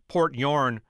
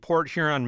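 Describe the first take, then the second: First: Huron is squeezed into one syllable. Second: Huron is said with two syllables.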